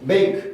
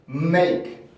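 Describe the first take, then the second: First: It starts directly on the M sound. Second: A short hum comes before the M sound. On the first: The speaker calls it wrong. "이렇게 나오는 게 아니라" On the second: The speaker calls it right. "이런 식으로 소리가 울림 소리가 하나 있는 거죠"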